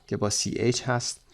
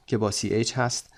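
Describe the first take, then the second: No difference in how they are said.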